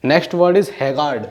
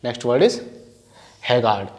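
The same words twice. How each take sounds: First: Slow dictation. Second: Said in the usual way. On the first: Shown as a demonstration.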